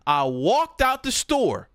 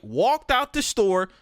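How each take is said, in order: First: Drawn-out, deliberate telling; slow dramatic emphasis. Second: Drawn-out, weighty repeat; slow dramatic repeat. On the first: Walking out of the job, slow and dramatic. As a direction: let each word land slowly. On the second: Repeating the exit to the chat, slow and weighty. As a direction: stretch it out for drama. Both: Shown as a demonstration.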